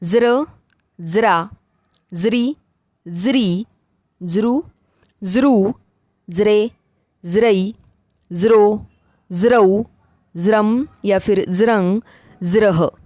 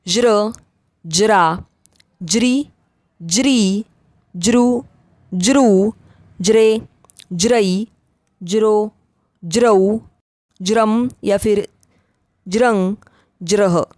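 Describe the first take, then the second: First: ज्र recited with a buzzing "z", "zra"; z onset on each ज्र syllable. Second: ज्र recited with a "j" onset, "jra". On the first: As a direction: say the ज in ज्र, ज्रा as "z". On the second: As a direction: say the ज in ज्र, ज्रा as English "j". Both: Shown as a demonstration. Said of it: "ज का उच्चारण ज भी".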